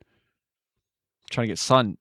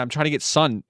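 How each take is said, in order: First: Slow, drawn-out lilting line; slow sing-song. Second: Said in the usual way. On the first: Acted. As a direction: stretch it out, rising at the end.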